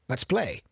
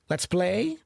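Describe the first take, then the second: First: The voice falls at the end, like a statement. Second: The voice rises at the end, like a question. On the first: It is a statement. The speaker calls it right. "your tone should be of an affirmative sentence" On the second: It sounds like a question. The speaker calls it wrong. "never speak a let's sentence with a question tone. So don't say"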